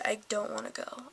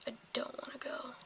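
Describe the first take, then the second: First: Said in the usual way. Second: Whispered. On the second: Real, not acted. A teen whispering to viewers about dreading driving school. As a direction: repeat "I don't wanna go" in a much softer unvoiced whisper.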